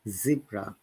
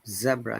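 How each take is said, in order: First: It is said in an American accent. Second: It is said in a British accent. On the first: "or American and Canada" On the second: "zebra in British English"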